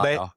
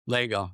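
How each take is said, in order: First: The first vowel sounds like the vowel in 'lah'. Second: The first vowel sounds like the vowel in 'leg'. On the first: The speaker calls it wrong. "not Lago" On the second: The speaker calls it right. "Lego, not"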